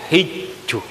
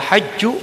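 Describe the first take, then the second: First: The first vowel is a close 'i'. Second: The first vowel is an open 'a'. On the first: "Boleh baris ke bawah" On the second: "Nang baris ke atas"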